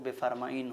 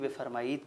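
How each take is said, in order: First: The word ends with an 'n' sound. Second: The word ends with a 'd' sound. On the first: This is how native speakers actually say it. "तलफ़्फ़ुज़ और अदायगी के लिहाज से ... बेफ़रमाइन हो जाता है" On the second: This is the written form of the word. "उसका तहरीरी वजूद बेफ़रमाइद है"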